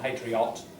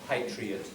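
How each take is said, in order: First: The last syllable has a full vowel. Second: The last syllable has a reduced schwa vowel. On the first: The speaker calls it wrong. "not patriot" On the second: The speaker calls it right. "It's a schwa"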